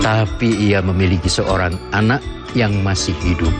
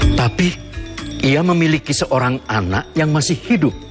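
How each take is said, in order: First: It is read in a relieved, calm tone. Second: It is read in an anxious, worried tone. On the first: The character feels reassured about the situation. "diucapkan dengan perasaan lega" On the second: The character is worried about the situation. "Kalau kita menafsirkannya sebagai suatu ungkapan kecemasan, kita akan membacanya dengan seperti ini"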